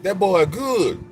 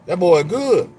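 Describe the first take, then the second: First: Drawn out, high, savoring each word; slow, high line from Coming to America; slow movie catchphrase. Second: Loud, high punchline delivery; loud callback to Coming to America; loud movie catchphrase. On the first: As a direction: stretch the catchphrase slowly. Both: Retold or imitated. Quoting movie line again.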